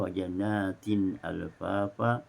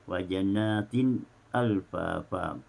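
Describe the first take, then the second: First: A clear glottal stop begins 'alfafa' without linking. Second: A brief silent catch comes before 'alfafa'. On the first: "dibaca dengan izhar"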